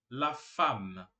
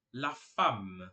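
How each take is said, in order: Both takes have the same delivery.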